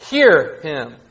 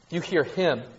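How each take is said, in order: First: "Hear" punched, "him" falls away; stress on hear. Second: "him" stressed with a falling tune. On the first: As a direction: hit the word Hear, not him. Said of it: "they want to put emphasis on "hear". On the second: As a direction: land the weight on him. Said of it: "put emphasis on the word "him". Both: Shown as a demonstration.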